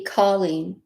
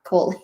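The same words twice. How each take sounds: First: "Colleen" with an open aw, like call-een; "Colleen" with a broad aw up front; open AW pronunciation. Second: "Colleen" with a long O, like coal-een; "Colleen" with a round oh, dropped softer; long O pronunciation. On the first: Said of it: "swears up and down it's supposed to be". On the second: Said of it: "not Colleen". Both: Shown as a demonstration.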